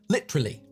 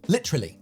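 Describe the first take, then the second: First: The word is said with three syllables and slight pause. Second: The same.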